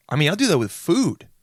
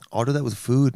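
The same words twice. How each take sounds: First: High, punched emphasis on "food"; over-emphatic outburst; yelling. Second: Said in the usual way. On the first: Real, not acted. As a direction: blurt it out, with "food" leaping up in pitch. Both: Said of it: "Why am I yelling?".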